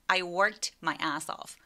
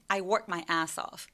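First: It is said slowly with the t pronounced. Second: It is said fast with the t dropped. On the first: "천천히 말한다면" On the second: "빠르게 말할 때에는 ... 이렇게 t 소리를 삭제시켜도 좋아요"

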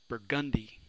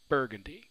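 First: The stress is on the second syllable. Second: The stress is on the first syllable. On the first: It names a street in New Orleans. "We stress that second syllable" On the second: It names a shade of purple. "We stress that first syllable"

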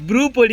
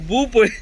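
First: The first word is said 'bru' with an r. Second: The first word is said 'bhu' with no r. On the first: The speaker calls it right. "బ్రూ పొడి అనాలి" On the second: The speaker calls it wrong. "భూ పొడి కాదు"

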